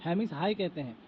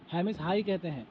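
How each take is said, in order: Both takes have the same delivery.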